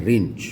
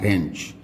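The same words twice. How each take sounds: First: रिंच, the vowel as in "rin"; common mispronunciation. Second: रेंच, the vowel as in "ren"; correct pronunciation. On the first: Teacher showing what everyone has heard, mispronounced with I. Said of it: "उसका pronunciation रिंच नहीं होता है". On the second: Teacher correcting a common word for learners, E vowel. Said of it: "इसका pronunciation होता है रेंच". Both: Shown as a demonstration.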